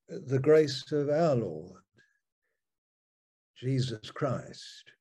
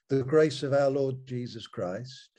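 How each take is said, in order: First: The stress falls on the word our. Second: The word our is not stressed.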